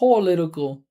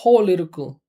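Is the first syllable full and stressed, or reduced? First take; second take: full; full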